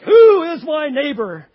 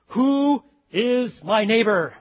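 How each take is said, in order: First: It is said with full force and energy. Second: It is said in a calmer, plainer voice.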